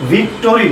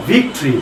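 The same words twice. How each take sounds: First: ভিক্টোরি with a full "to" in the middle; wrong three-syllable victory. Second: ভিক্টরি squeezed to "VIK-tree"; correct two-syllable victory. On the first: (ভিক্টোরি, মাঝে পুরো "টো") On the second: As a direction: drop the middle vowel in ভিক্টরি. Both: Shown as a demonstration. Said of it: "ভিক্টোরি না".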